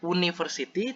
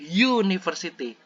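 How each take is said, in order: First: The word begins with a plain vowel sound. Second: The word begins with a y sound. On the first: The speaker calls it wrong. "bukan baca university" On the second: The speaker calls it right. "University itu depannya y, bukan u"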